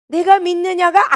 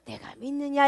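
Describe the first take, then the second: First: "내가 믿느냐" said slowly with firm emphasis; forceful accent. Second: Soft, unforced "내가 믿느냐"; gentle. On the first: Preacher shows how the Lord might ask it, "내가 믿느냐" firmly accented. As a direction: lean hard into "내가 믿느냐", drawing it out. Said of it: "악센트가 들어갈 수도 있고". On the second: Preacher shows the Lord's kinder way of asking, "내가 믿느냐" said gently. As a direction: ease off and ask "내가 믿느냐" softly. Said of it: "이러고 부드럽게 나올 수도". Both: Shown as a demonstration.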